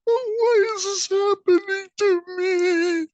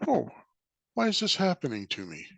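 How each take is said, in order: First: It sounds self-pitying and complaining, like a victim. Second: It sounds curious and interested, like a student.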